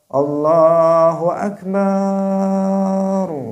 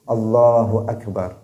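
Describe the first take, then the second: First: The ba syllable of Akbar is drawn out. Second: No vowel in the phrase is drawn out. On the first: The speaker calls it wrong. "Dipanjangkan ba-nya biar enak suaranya" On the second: The speaker calls it right. "Jangan kemudian salah mengucapkannya"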